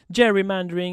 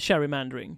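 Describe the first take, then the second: First: The word does not begin with a 'ch' sound. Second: The word begins with a 'ch' sound.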